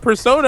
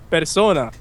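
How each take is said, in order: First: The word is said with an English accent. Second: The word is said with a Spanish accent. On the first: It is the name of the game. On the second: It is the Spanish word for person.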